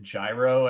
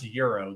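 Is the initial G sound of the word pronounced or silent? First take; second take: pronounced; silent. First: The word begins with a pronounced G sound. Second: The word begins with no G sound. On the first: The speaker calls it wrong. "I've come across people that will pronounce it gyro, and I was like, do not call it that" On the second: The speaker calls it right. "It's pronounced euro. The G is silent"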